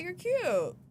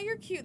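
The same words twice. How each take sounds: First: The compliment sounds warm and sincere. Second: The compliment sounds dismissive and brushing off. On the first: The speaker genuinely finds the other person cute. "I guess the tone matters" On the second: The speaker wants the other person to go away. "that could just be like a get the fuck out of my face"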